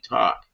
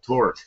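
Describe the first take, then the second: First: It is said in a Boston accent. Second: It is said in a standard accent. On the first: "my friend from Boston is, he's near Boston. His father used to tell me"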